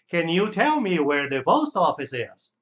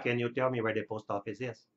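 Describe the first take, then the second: First: The pitch rises early, then falls at the end. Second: The pitch stays flat without rises or falls. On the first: The speaker calls it right. "Você tem que dar duas ondas assim, ó, e abaixa" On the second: The speaker calls it wrong. "Você não pode falar"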